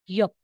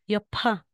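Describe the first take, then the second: First: The final consonant is plain without a puff of air. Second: The final consonant is released with a puff of air. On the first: The speaker calls it right. "Hindi na po yan yapa. Ano na po siya?" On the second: The speaker calls it wrong. "Kasi di ba may H, may hangin"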